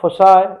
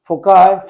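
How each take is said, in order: First: The middle consonant is a soft s sound. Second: The middle consonant is a hard k sound. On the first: "फोसाई is more appropriate" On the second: "कोई इसे फोकाई pronounce करता है"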